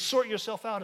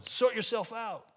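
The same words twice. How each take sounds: First: Sort yourself out, louder, stressed as false; stressed quote. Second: Slow, dismissive quote; slow mock brush-off. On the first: Shown as a demonstration. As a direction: hold up the phrase as the wrong one. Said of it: "is a false gospel". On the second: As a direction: toss it off like a brush-off. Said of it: "much better than just going".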